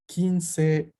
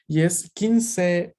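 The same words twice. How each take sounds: First: Kinsei repeated as kin-sei; Japanese word. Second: Slow, Kinsei said kin-sei; Japanese word. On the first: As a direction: model Kinsei for the class. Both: Shown as a demonstration. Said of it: "significa tal cual".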